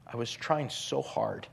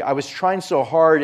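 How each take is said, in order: First: Softer, sinking at the end; a quiet plea, almost to yourself; softly worn out and earnest; hushed pleading. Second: Louder, straining to get it out; urgent emphatic retelling; pressing emphasis. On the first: Same words, now hushed in quote. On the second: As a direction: push it like you are fighting to save him. Preacher retells surgery, building emphasis. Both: Retold or imitated.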